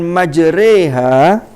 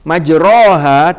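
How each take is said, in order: First: The vowel after the r leans toward 'e'. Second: The vowel after the r is an open 'a'. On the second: "bacaan fathah"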